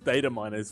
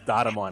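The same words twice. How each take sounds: First: It is said in an American accent. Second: It is said in an Australian accent. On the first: "For you Americans" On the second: "For us Australians"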